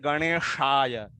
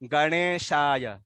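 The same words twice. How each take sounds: First: The sh sound is a retroflex sh. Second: The sh sound is a plain palatal sh. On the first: The speaker calls it wrong. "Not" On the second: The speaker calls it right. "सरल श है, शंकर वाला।"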